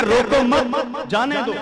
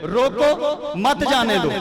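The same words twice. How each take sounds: First: Slow, high "روکو مت", break, then "جانے دو"; pause after مت. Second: High, loud "روکو", break, then "مت جانے دو"; pause after روکو. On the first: Scholar demonstrating opposite meaning to listeners, pause after مت. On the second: Scholar demonstrating first meaning to listeners, pause after روکو. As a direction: set روکو apart, keep مت with جانے دو. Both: Shown as a demonstration. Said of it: "پڑھنے میں مختلف ہے".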